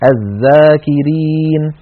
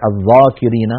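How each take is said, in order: First: The dh sound is light and not emphatic. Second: The dh sound is heavy and emphatic. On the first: The speaker calls it right. "بل نقول" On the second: The speaker calls it wrong. "ولا نقول"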